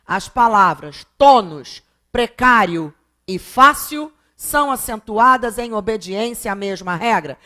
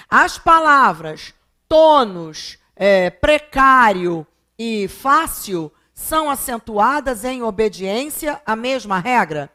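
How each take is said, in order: First: Said in the usual way. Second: Slow, deliberate reading of an exam question. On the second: Shown as a demonstration. Teacher reading the exam question aloud to students, slow and deliberate. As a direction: read it out slowly like the test item. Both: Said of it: "Ela vai dizer assim na questão".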